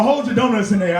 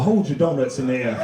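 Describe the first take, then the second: First: Said in the usual way. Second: Very low preacher voice; pastor impression. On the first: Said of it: "He talking about". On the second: Pastor instructing his congregation, low solemn voice. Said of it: "the pastor go up".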